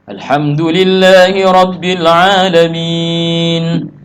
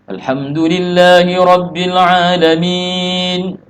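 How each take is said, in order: First: A breath is taken right after it. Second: It runs on without a breath afterward. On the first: A full stop before continuing. "Ambil nafas" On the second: A brief stop without breathing. "Berarti kita sakta-sakta itu namanya. Karena kita tidak ambil napas"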